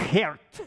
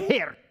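First: Said in the usual way. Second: Geert said the Dutch way, sharp and high; Dutch pronunciation. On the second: Shown as a demonstration. Pastor showing how his Dutch boss said his name, Dutch pronunciation. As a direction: give Geert its Dutch sound, higher and louder. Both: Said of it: "that's how he said it".

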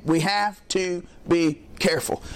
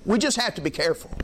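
First: "We have to be careful" slow, every word set apart; emphatic word by word. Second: Said in the usual way. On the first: Real, not acted. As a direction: weigh each word of "We have to be careful", pausing between them. Repeats warning word by word for emphasis.

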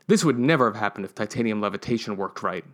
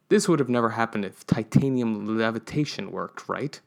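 First: Flat statement, no question; worked right said as a plain fact; corrected take. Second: Questioning tag on right; wrong take. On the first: Narrator fixes the line as a firm statement. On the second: Narrator rereads the line, first with a questioning rise. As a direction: ends on a rising right?. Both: Shown as a demonstration. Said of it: "No, that was said wrong".

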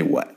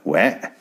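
First: Said in the usual way. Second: "What?" pushed toward "wet", rising; imitating odd "What". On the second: Telling listeners to watch him, mimicked rising "What?" as "wet". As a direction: mimic his "What?" with a flattened "wet" vowel, lifted at the end. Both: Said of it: "watch him say".

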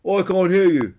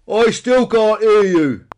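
First: High, loud claim not to hear; feigned deafness. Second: Very loud, high, drawn-out shout; escalated feigned deafness. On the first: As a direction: call it out to tease. Peter pretends not to hear. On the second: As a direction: bellow slowly as if deafened. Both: A narrator's reading.

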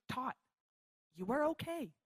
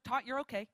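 First: "Tot", pause, then "you are okay" spaced out; deliberate reassurance. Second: Said in the usual way. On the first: Retold or imitated. Mom to floored daughter, "you are okay" said with deliberate pauses. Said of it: "And she goes". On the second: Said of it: "She's like".

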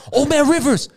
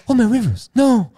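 First: High, loud cry of grief; anguished cry. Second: High, loud wail of grief; anguished cry. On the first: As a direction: cry out for a fallen friend. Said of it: "He goes like". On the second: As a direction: cry out, pitched up, despairing. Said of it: "he goes like". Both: Retold or imitated.

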